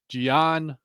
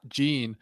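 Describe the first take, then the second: First: The name is said like 'Gian'. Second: The name is said like 'Gene'. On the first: The speaker calls it right. "They're saying like Gian" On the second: The speaker calls it wrong. "dude, you're saying it wrong. It's not Gene"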